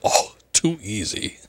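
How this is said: It is said with a scoff.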